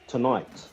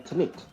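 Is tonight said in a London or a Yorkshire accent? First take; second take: London; Yorkshire. First: It is said in a London accent. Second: It is said in a Yorkshire accent. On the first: "Normally, we would say tonight" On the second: "They say tonight"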